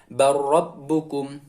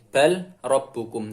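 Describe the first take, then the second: First: The L is dropped into a doubled R. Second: The L is sounded before the R. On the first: This is how it is read aloud. The speaker calls it right. "Tapi kita membacanya bar rabbukum" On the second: This is how it is written. The speaker calls it wrong. "di sini tulisannya bal rabbukum"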